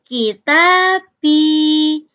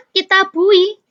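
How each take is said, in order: First: Very slow "Kita bi" with a kasra before ya; teacher slowly spells out the right "Kita bi"; correct form. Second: High loud "Kitabui" as the tempting mistake; teacher floats the wrong "Kitabui" to the class; wrong form. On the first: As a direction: say "Kita bi" drawn out, ending in a clear -bi. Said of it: "Ya sukun sebelumnya diganti kasro". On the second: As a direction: say "Kitabui" ending in u-i, raised and louder. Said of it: "Kitabui nggak ada". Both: Shown as a demonstration.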